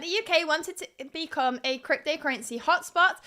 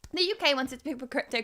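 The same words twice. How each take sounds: First: Slower, more careful restart; slow down and space out the words; deliberately slowed down. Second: Rushed, tripping into the next word; speaking too quickly. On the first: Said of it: "I will slow down now". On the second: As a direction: race through it too fast. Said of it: "I'm speaking so quickly". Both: Real, not acted.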